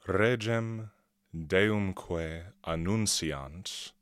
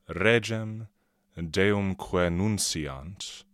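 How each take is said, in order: First: Deumque and annunciant are said as separate words. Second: Deumque and annunciant merge into one word.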